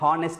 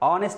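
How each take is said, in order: First: The word starts with an h sound. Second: The word starts with a vowel, no h. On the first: The speaker calls it wrong. "దీన్ని హానెస్ట్ అనొద్దు" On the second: The speaker calls it right. "ఆనెస్ట్ అనాలి"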